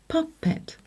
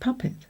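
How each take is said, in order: First: It is pronounced exactly as the letters blend. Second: It is pronounced in the usual everyday way. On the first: "when blended, would say" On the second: "but we usually say"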